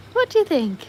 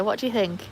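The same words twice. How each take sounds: First: Very high, playful question; high sing-song pet voice; pet-talk voice. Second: Said in the usual way. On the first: Real, not acted. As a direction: ask it as if cooing to a dog.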